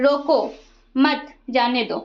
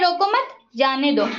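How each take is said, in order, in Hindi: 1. पहले शब्द के बाद विराम है। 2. दूसरे शब्द के बाद विराम है। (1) "ऊपर फर्स्ट वाले में आप देखिए यहाँ कोमा है" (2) "सेकंड वाला वो मत के बाद यहाँ पे कोमा है"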